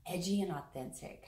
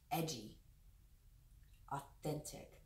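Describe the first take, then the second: First: Said in the usual way. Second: Hushed words, the second whispered; soft channeled whisper; whispered message. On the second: Shown as a demonstration. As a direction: whisper the words as they come through. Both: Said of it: "I'm hearing those two words".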